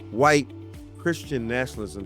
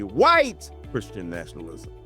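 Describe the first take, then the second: First: The phrase is said with ordinary, even stress. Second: The word white carries strong emphasis.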